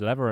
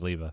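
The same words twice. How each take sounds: First: It is said with an American pronunciation. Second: It is said with a British pronunciation. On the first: "is lever American?" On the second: "I think it's how Brits say it"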